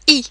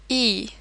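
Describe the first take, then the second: First: The letter is said as a clipped 'ee' sound. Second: The letter is said as an English 'eye' sound. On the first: The speaker calls it right. "The letter I in French is pronounced as I" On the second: The speaker calls it wrong. "not E"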